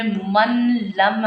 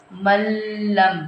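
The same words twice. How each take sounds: First: "मन लम" with the n sounded and held before lam; unmerged noon. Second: "मल्लम" very slow, long doubled l and no n; noon merged into lam. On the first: Teacher showing what not to read, n sounded in "मन लम". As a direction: keep a clear n in "मन लम". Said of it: "हमने नहीं पढ़ना". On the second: Teacher showing how to read it without ghunna, long l in "मल्लम". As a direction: drop the n, lean on the l of "मल्लम". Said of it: "हमने इसको पढ़ना". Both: Shown as a demonstration.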